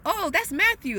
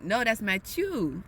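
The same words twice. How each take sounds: First: Said in the usual way. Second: "Matthew" said the French way, mat-YEU, no th, a bit slower. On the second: Retold or imitated. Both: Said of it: "the way the names are said is completely different".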